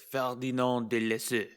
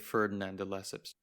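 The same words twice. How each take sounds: First: The name is said with French pronunciation. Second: The name is said with English pronunciation. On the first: This is likely the original pronunciation. "probably pronounced as" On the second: This is the presenter's own chosen pronunciation. "but I'm going to say"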